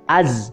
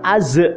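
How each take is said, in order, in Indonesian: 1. Bunyi z ditahan tanpa pantulan. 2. Bunyi z diakhiri dengan gema yang memantul. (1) "harusnya seperti lafaz azwaja" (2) "nggak usah az"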